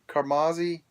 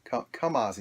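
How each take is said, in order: First: The name is said with an R sound. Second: The name is said without an R sound. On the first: The speaker calls it wrong. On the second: The speaker calls it right.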